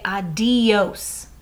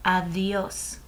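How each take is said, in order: First: "adios" with a hard, stopped D; hard English D. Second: "Adios" with the D like a th; soft Spanish D. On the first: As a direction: say "adios" with the D of "dog". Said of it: "notice I don't say adios". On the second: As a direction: soften the D in "Adios" to the th of "this". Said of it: "I kinda pronounce it like a th". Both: Shown as a demonstration.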